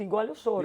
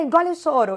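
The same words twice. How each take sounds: First: Said in the usual way. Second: "Engole o choro" said higher and louder as a harsh command; "Engole o choro" barked high and loud by an imitated mother; stern mother's order. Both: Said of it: "essa frase eu escutei muito".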